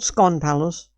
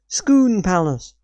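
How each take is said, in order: First: The first word has an 'oh' vowel. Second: The first word has an 'oo' vowel. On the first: It is read the way it is spelled. The speaker calls it wrong. "not Scone Palace" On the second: It is said the local way. The speaker calls it right. "it's pronounced Scoon Palace"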